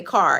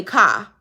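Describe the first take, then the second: First: Said in the usual way. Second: "car" with the R dropped, as "cah"; Chicago r-less pronunciation. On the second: Shown as a demonstration. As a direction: say "car" with an open vowel ending, no R. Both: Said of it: "we don't pronounce our R's".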